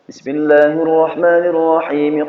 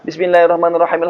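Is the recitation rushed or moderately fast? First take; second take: moderately fast; rushed. First: It is recited fast but lengths stay clear. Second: It is recited extremely fast, lengths blurred. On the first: This is the fastest acceptable recitation. The speaker calls it right. "Itu sudah paling cepat" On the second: The proper measured recitation is lost. The speaker calls it wrong. "terlalu kencang, ngebut sekali"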